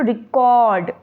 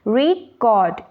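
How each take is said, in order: First: The stress is on the second syllable. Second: The stress is on the first syllable. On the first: "last के word पे जो है stress देना" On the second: "आगे के word पे stress देना तो देखिए मैं स्ट्रेस देके इसको कैसे पढ़ूंगी"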